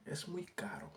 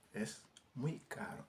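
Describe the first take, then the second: First: Said in the usual way. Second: Slow it down so students can copy; slow careful repeat. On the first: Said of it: "teacher models the Spanish phrase". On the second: Shown as a demonstration. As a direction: say Es muy caro slowly, with muy drawn out. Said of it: "teacher repeats the phrase slower". (waxaat ko ndànk ndànk)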